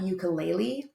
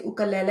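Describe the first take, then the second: First: "ukulele" said YOO-kuh-LAY-lee; "ukulele" the Americanized way, you-kuh-lay-lee; Americanized pronunciation. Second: "ukulele" said oo-kuh-LEH-leh; "ukulele" with two "leh" syllables at the end; original pronunciation. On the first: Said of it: "and not ukulele". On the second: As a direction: start "ukulele" on "oo", not "you". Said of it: "the reason that we say". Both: Shown as a demonstration.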